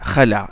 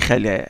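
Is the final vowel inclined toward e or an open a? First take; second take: open a; inclined e. First: The final vowel is a plain open a. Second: The final vowel leans toward an e sound. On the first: The speaker calls it right. "ils l'ont prononcé alif" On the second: The speaker calls it wrong. "Ils n'ont pas dit khala, non"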